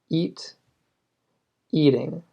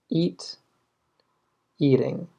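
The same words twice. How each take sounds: Both takes have the same delivery.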